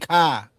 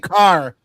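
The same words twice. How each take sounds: First: It is said in a Boston accent. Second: It is said in a non-Boston accent.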